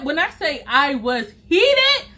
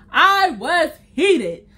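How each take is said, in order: First: Drawn-out heated for emphasis; slow emphatic heated. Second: Heated dragged out slowly; stressed slow heated. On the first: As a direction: stretch out heated, slowly. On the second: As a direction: lean hard on heated. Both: Real, not acted.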